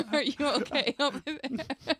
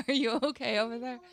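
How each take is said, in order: First: Asked through laughter, drawn out; laughing. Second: Said in the usual way. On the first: Real, not acted. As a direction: giggle as you ask. Laughing at the clip.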